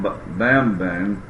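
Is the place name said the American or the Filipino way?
American. It is said with an American pronunciation. This is how visitors would say it. "That's how we would pronounce it"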